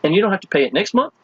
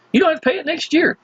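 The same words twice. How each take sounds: First: Said in the usual way. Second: "don't" pitched much higher, quick, insistent; stress on don't. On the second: Shown as a demonstration. Pitching prospects, "don't" jumps high and fast.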